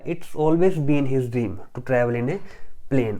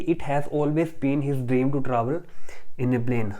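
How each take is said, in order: First: The words it has are shortened to its. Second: The words it has are said separately.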